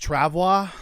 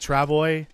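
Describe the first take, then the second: First: The word is said with a French pronunciation. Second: The word is said with an English pronunciation. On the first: This is how the game's developer says it. "That's how Raphael pronounced it" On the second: This is how the speaker has been saying it. "I've been pronouncing it Travois"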